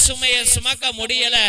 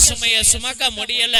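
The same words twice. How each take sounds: The two takes are said the same way.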